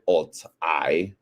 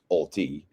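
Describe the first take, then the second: First: The name ends with an 'eye' sound. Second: The name ends with an 'ee' sound. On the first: "but we will pronounce it Alt I" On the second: "it could be pronounced Alti"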